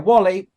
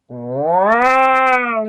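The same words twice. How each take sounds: First: It is said in his normal voice. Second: It is said in a put-on WALL-E voice.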